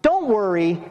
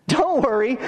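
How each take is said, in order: First: Easy, unforced comfort; mild reassurance. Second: Higher-pitched mock reassurance; ironic warning. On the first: Acted. Preacher voicing a God who makes no demands, mild reassurance. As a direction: reassure casually, at an even pitch. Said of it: "that's not so much a". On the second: Preacher warning that God will rebuke you, ironic reassurance. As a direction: lift the pitch, comfort that warns of rebuke. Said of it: "God's going to rebuke you".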